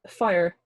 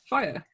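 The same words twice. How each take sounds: First: It is said with a Bristol-like West Country accent. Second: It is said with a neutral, unmarked accent. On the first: The speaker calls it wrong. "That is not how you say fire. ... You went straight down to Bristol for that one" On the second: The speaker calls it right. "Yeah, there you go. That's fine"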